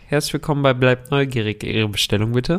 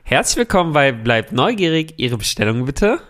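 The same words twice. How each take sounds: First: It is said flatly, with little enthusiasm. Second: It is said with lively enthusiasm.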